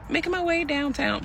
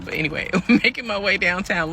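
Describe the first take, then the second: First: Sung, belt the tune up high. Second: Spoken with a laugh. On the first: Pretend. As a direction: sing it high, like the song. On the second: Real, not acted. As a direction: laugh through it.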